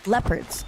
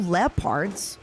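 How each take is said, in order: First: The word is said with an English pronunciation. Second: The word is said with a Russian pronunciation. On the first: The speaker calls it right. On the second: The speaker calls it wrong. "So I said it with the accent"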